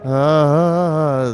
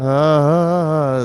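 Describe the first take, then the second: First: It is weak and flat. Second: It is weak and flat.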